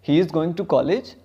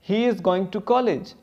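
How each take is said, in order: First: It is said with question intonation. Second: It is said as a plain statement. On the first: It asks whether this is true. "हम ऐसे question करते हैं" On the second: It reports a fact. "कोई भी simple sentence है"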